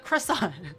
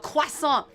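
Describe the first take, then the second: First: The word is said with an English accent. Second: The word is said with a French accent.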